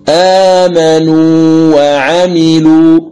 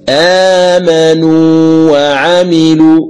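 The two takes are said the same way.

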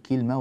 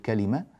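First: The middle consonant carries no vowel, making it shorter. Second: Every consonant is followed by a vowel, making it longer. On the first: This reading keeps the verse in meter. The speaker calls it right. "هكذا نقول كلمة" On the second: This reading breaks the verse's meter. The speaker calls it wrong. "ولا نقول كلمة"

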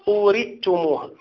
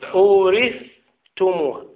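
First: The th sound merges into the following t. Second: The th sound is pronounced clearly before t. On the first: The speaker calls it wrong. "لا تضغم الثاء في التاء" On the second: The speaker calls it right. "الثاء وحدها"

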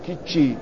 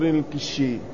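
First: The middle consonant is a ch sound. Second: The middle consonant is an sh sound.

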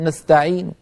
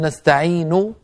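First: The final vowel is said faintly, lowered. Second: The final vowel is voiced fully. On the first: "ضمة منخفضة" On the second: "هكذا بضمة كاملة"

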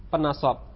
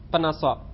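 Both takes have the same delivery.

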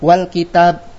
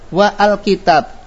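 First: Wa links straight into the word without glottal stop. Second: A glottal stop and vowel are pronounced after wa. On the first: The speaker calls it right. "Kita baca" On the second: The speaker calls it wrong. "berarti salah"

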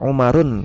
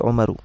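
First: The word ends with an n sound. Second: The word ends with a plain u vowel. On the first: The speaker calls it wrong. "tidak dibaca Umarun" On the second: The speaker calls it right. "tapi Umaru"

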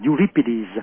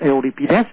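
First: The name is pronounced the English way. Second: The name is pronounced the Greek way. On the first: "tiếng Anh là Euripides" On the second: "tiếng Hy Lạp là Euripides"

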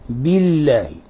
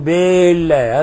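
First: The i after b is short and pure. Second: The vowel after b is drawn out long. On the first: The speaker calls it right. "يجب إخلاص الكسرة" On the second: The speaker calls it wrong. "هذا خطأ أيضا، لأن هنا تولد منها ألفا"

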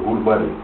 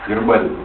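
First: The first vowel sounds like 'u'. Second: The first vowel sounds like 'e'. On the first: It copies a cartoon character's way of saying it. "Ну она говорила, гурбарий. Это ворона там такая была" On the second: It is the usual form of the word. "как он называется?"

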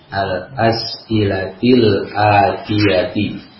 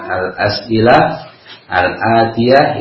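First: The words carry linked -il and -i endings. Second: The words end in -ah, unlinked pausal forms. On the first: "itu dibacanya al as'ilatil atiyati" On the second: "Menemukan kalimat al as'ilah al atiyah"

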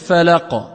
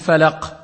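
First: The final q is released with a small echo. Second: The final q is cut short without resonance. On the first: The speaker calls it right. "le mieux c'est de dire le falaq. D'accord? Là, al-qalqala, la résonance" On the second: The speaker calls it wrong. "il y a un manquement dans sa récitation"

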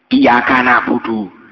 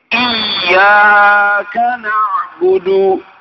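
First: The y sound is short and not doubled. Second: The y sound is held and doubled. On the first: The speaker calls it wrong. "Tak boleh" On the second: The speaker calls it right. "Iyaka di atas ya. Ada tasdidnya"

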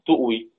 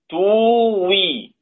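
First: A glottal stop is pronounced after the first syllable. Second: No glottal stop; a long vowel replaces it. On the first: "تؤوي بقت توي" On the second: "تؤوي بقت توي"

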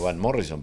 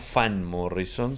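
First: The first name begins with a V sound. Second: The first name begins with an F sound. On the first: The speaker calls it right. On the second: The speaker calls it wrong.

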